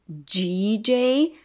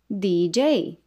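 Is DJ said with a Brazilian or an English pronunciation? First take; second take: Brazilian; English. First: It is said with a Brazilian Portuguese pronunciation. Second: It is said with an English pronunciation. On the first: The speaker calls it wrong. "Também abrasileiramos e falamos DJ" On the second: The speaker calls it right. "O correto é D, da dedidodu"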